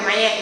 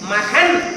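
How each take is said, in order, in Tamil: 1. நடுவில் உள்ள k ஒலி முழுவதுமாக விழுந்துவிடும். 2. நடுவில் இருக்கும் மெய் k ஒலி தான். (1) "அந்த காவே சொல்ல மாட்டாங்க" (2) "நம்ம தூய தமிழ்ல சொல்றோம்"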